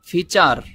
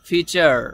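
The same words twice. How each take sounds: First: The final r is a Bengali tapped r. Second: The final r is a light flapped sound. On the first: "বাঙালিদের মতো উচ্চারণ করেন" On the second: "ডয় শূন্য র এর মতো উচ্চারণ করে"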